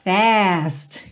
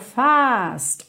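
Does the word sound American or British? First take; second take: American; British. First: The vowel is flat and fronted. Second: The vowel is long, open and back.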